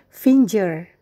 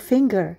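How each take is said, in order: First: The g is pronounced as a soft j sound. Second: The g is pronounced as a hard g sound. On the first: The speaker calls it wrong. "Saya mendengar beberapa orang mengatakan finger. Pada umumnya bunyi huruf G adalah j" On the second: The speaker calls it right. "tetapi pada kata ini bunyi huruf G adalah g"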